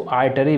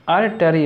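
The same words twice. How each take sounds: First: Artery said as "aatery"; artery, common variant. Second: Artery said as "ar-ta-ree"; artery, careful syllables. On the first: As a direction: soften the first r of artery away. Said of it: "वैसे लोग बोलते हैं इसको". (artery को आटरी बोलना) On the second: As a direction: sound the r before t in artery. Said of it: "वैसे लोग बोलते हैं". (artery को अर्टरी बोलना) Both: Shown as a demonstration.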